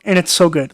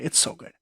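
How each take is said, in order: First: Said in the usual way. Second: Breathy hushed repeat of the praise; whispered aside. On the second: Real, not acted. Reviewer repeating the praise to herself, whispered. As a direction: whisper It's so good to yourself.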